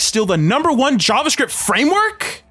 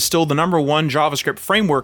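First: It is read dramatically as an excited question. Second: It is read flatly as a plain title.

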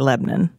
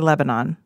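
First: Lebanon is said the Tennessee way. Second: Lebanon is said the standard, non-Tennessee way.

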